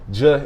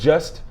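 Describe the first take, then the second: First: The word is cut short to one sound. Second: The word is said fully with every sound. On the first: "if I say "j" instead of just" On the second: "instead of just"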